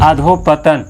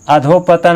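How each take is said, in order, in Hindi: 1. शब्द 'patan' से पहले 'adho' है। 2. शब्द 'patan' से पहले 'adho' है।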